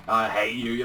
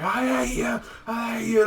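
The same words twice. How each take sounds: First: Said in the usual way. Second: Much higher, screamed imitation; screaming. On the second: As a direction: scream it at him, imitating the hero. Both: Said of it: "he's just screaming".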